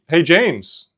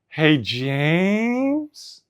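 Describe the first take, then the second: First: It is called out in a relaxed, ordinary way. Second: It is called out urgently, rising like a question. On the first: It is an everyday request. "if I was looking for a pair of pliers, the way I would ask" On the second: Something shocking has been found. "that tone makes me so worried"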